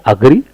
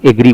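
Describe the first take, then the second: First: "अग्री" said uh-gree; initial short "uh". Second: "एग्री" said ay-gree; initial "ay". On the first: Teacher giving the correct word, uh-gree pronunciation. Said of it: "दुरुस्त तलफ़ुज़ है अग्री". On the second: Teacher quoting common mistake, ay-gree pronunciation. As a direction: begin "एग्री" with a full ay. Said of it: "उसे लोग एग्री बोलते हैं". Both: Shown as a demonstration.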